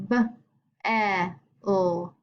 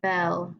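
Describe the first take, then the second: First: "bell" in three separate sounds; bell sounded out. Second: Said in the usual way. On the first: Shown as a demonstration. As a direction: stretch and separate B, short E, L in "bell". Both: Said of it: "think if they make their long or short sound".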